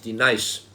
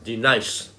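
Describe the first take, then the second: The two takes are said the same way.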